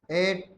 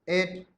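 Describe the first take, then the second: No difference in how they are said.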